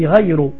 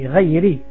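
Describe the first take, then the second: First: The word ends with a u vowel. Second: The word ends with an i vowel. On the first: The speaker calls it wrong. "tu dis Ghayru" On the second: The speaker calls it right. "au lieu de dire Ghayri al-Maghdoubi"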